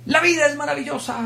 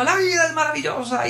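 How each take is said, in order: First: High, joyful declaration; exuberant proclamation. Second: High, ecstatic cry from on top of a desk; shouted from the desk. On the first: Teacher telling the class, high and joyful. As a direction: announce it like the best news ever. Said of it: "Él solo decía". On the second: Teacher on the desk crying out to students, high and ecstatic. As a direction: proclaim it standing on a desk. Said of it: "se subía en el pupitre y gritaba". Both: Retold or imitated.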